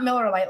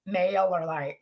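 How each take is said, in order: First: "Miller Lite" with a short i, like the beer; wrong name. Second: "MailerLite" with "Mailer" like mail; low, careful "MailerLite" with a long a in the first syllable; correct name. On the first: Coach contrasting the beer with the email platform, wrong name. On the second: Coach correcting how her accent makes it sound, correct name. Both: Shown as a demonstration. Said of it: "that's not Miller Lite like the beer".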